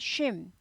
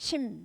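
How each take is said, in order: First: The name begins with a sh sound. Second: The name begins with a plain s sound. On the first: This is the Western way of saying it. "얘네는 쉼" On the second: This is the Korean way of saying it. "우리나라 심은 심"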